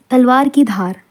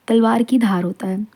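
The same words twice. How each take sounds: First: Said in the usual way. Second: Whispered. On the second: Shown as a demonstration. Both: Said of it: "teacher repeats phrase for class".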